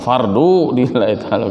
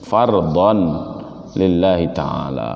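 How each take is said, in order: First: The first word ends in a plain u sound. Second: The first word ends in an on sound. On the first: The speaker calls it wrong. "bukan fardu lillahi ta'ala, bukan gitu" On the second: The speaker calls it right. "benerin. Fardon lillahi ta'ala"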